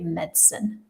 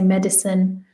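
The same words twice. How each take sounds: First: The middle vowel is dropped, giving two syllables. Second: The middle vowel is pronounced, giving three syllables. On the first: "it is more common to remove it" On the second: "you can pronounce the I in the middle"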